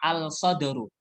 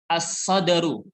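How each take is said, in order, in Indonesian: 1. Huruf 'l' terdengar jelas sebelum 's'. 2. Huruf 'l' tidak terdengar, langsung masuk ke 's'. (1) "Bukan bacanya" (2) "Langsung masuk huruf sod"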